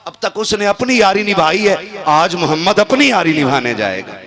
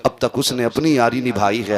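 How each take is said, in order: First: Louder and higher, ringing out; raised proclamation. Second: Said in the usual way. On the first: Acted. Preacher voicing the Prophet's words to companions, raised and ringing. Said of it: "repeated line, raised". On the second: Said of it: "repeated line".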